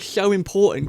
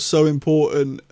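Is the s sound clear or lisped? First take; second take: lisped; clear. First: The s sound is lisped, like th. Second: The s sound is clear, without a lisp.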